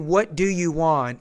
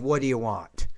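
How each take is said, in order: First: Every word is said fully and separately. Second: The words are reduced and run together.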